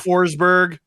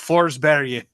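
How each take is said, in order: First: The name is said with an English pronunciation. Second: The name is said with a Swedish pronunciation. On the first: The speaker calls it wrong. "is not a person" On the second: The speaker calls it right. "that is how you Forsberg"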